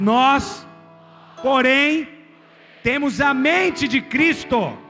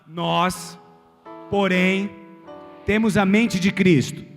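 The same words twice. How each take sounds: First: It is said much louder and stronger. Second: It is said aloud at normal volume.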